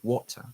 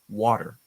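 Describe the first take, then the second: First: The middle T is strong and crisp. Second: The middle T is soft and light. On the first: "in other accents, it's a little bit stronger" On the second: "it kind of becomes softer and lower ... in my accent"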